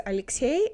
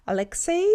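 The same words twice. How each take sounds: First: Alexei with a soft, palatal L; soft Russian L. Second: Alexei with a hard English L; English pronunciation. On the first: Teacher quotes how he says Alexei, soft L. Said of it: "pronounced a lot more softer". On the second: Teacher imitates how the girl says it, hard L. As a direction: say Alexei the American way, L not softened. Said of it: "how the girl says". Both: Retold or imitated.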